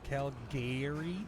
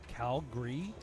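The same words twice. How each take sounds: First: It is pronounced the way outsiders say it. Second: It is pronounced the way locals say it. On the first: The speaker calls it wrong. "not Calgary" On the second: The speaker calls it right. "if you're from Calgary, it's Calgary"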